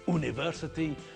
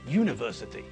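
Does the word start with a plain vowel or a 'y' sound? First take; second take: vowel; y sound. First: It starts with a plain vowel sound. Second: It starts with a 'y' consonant sound. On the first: The speaker calls it wrong. "We don't say university" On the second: The speaker calls it right. "they sound as though the first letter is not a vowel"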